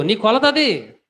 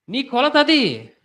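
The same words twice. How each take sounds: First: High, loud preaching line, అది falling; first statement. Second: నీ కొలత అది drawn out very slowly, అది falling hard; slow emphatic repeat. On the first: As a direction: say నీ కొలత అది straight, అది dropping. Repeats the verdict. (నీ కొలత అది - సాధారణ గట్టి ప్రసంగ స్వరం) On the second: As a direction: hammer each word of నీ కొలత అది slowly. (నీ కొలత అది - చాలా నెమ్మదిగా, ఒక్కో మాట నొక్కి) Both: Acted.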